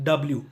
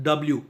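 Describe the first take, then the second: The two takes are said the same way.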